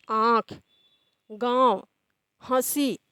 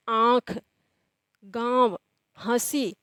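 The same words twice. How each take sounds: First: आँख, गाँव, हंसी again with clear nasal vowels; nasalized vowels repeated. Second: आँख, गाँव, हंसी with the vowels pushed through nose and mouth; nasalized vowels demo. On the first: Teacher repeating आँख, गाँव, हंसी for the class, nasal vowels. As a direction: say आँख, गाँव, हंसी slowly through nose and mouth. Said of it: "नाक और मुंह दोनों की सहायता से". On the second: Teacher demonstrating आँख, गाँव, हंसी to students, vowels nasalized. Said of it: "अब इसका उच्चारण देखिए". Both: Shown as a demonstration.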